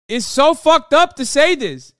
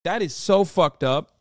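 First: Yelled much higher and louder; furious shout. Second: Said in the usual way. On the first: Real, not acted. Streamer yelling at pundit's clip, furious shout. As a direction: explode at the screen.

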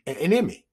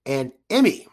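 First: "enemy" said as the word enemy, EN-uh-mee, by mistake; tripping over "enemy"; slip of the tongue. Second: "Emmy" said EM-ee, two syllables, fixed; correcting to "Emmy"; corrected word. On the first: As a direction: stumble into "enemy" instead of Emmy. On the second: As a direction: land the correction "Emmy" with a rise. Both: Real, not acted. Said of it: "I can't even get it out".

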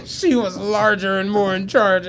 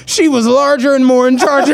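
First: Quiet laughing repeat. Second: Laughing quote. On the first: Real, not acted. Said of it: "I'm like". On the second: Retold or imitated.

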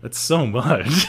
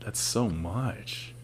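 First: SO stretched out, voice swooping; emphatic disbelief. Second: Very soft and drawn out; quiet disbelief. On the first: Host repeating reaction to absurd girth, emphatic disbelief. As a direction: repeat it aloud, dragging out "so". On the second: Host reacting to an absurd girth, quiet disbelief. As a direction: let it out slowly, far softer. Reacts to size, first take. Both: Real, not acted.

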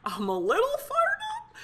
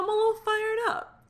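First: Much higher, excited squeal of fired. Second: Fired up. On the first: Asking listeners for reviews, squealing high with excitement. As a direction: pop the words up high with excitement. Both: Real, not acted.

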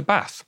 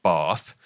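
First: BATH with the short, flat Northern "a" of cat; Northern English accent. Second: BATH with the long Southern "ah" vowel; Southern English accent. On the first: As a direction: say Bath the Manchester way, with a short vowel. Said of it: "I just switch to Bath". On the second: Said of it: "you can hear I've got a Southern voice". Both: Shown as a demonstration.

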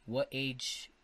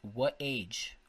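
No difference in how they are said.

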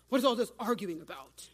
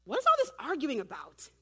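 First: Changed voice for Jesus. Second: Louder, lightly raised question as Jesus; a hint of acted Jesus, voice lifted; first-take Jesus voice. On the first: Acted. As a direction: drop into a firm Jesus voice. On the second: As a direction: read Jesus' question out brightly projected. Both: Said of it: "let me change my voice".

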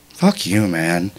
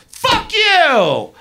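First: Low, unruffled dismissal; calm. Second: High, stretched-out angry yell; yelled retort. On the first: Woman to the rude driver, calm and low. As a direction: drop the pitch and say it evenly. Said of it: "calmly go". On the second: Driver hollering back before speeding off, high and furious. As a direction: fling it back as an outraged holler. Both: Retold or imitated.

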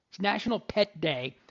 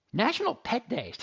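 First: Said in the usual way. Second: "National Pet Day" blurted higher in surprise; sudden realization, pitch jumps up; surprised discovery. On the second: Real, not acted. Host discovering the holiday on air, surprised. Did no one tell me this?.

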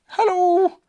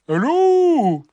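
First: High, louder calling bear voice; Pooh. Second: Loud, high drawn-out call; strange animal. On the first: Pooh greets whatever is outside, high call. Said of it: "said Pooh". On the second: Strange animal answers Pooh outside, loud whooped greeting. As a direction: whoop it back as an unknown creature. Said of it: "said the strange animal". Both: A narrator's reading.

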